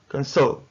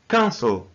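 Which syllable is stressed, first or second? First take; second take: second; first. First: The stress is on the second syllable. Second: The stress is on the first syllable. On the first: The speaker calls it wrong. "not cancel" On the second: The speaker calls it right. "the first syllable is stressed. So we say cancel"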